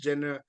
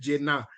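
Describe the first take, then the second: First: The surname sounds like the English name Jenner. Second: The surname is said the local Odisha way. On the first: "the commentators are pronouncing it like Kylie Jenner" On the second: "in Odisha, ... so it is called Jena"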